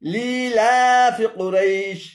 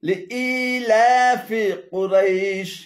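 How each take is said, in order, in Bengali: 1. 'fi' অংশটি কুরাইশের সাথে যুক্ত। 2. 'fi' অংশটি প্রথম শব্দের শেষে আছে। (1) "এখানে লিলা এবং ফি কুরাইশ উভয়টি ভুল উচ্চারণ" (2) "শুদ্ধ পাঠ হলো"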